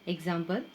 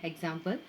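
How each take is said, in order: Both takes have the same delivery.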